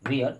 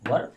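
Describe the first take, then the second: First: The vowel sounds like 'wear', with a glide. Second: The vowel sounds like 'wur', short and central. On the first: The speaker calls it wrong. "लोग वेयर पढ़ते हैं" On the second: The speaker calls it right. "शुद्ध उच्चारण इसका क्या है, वर"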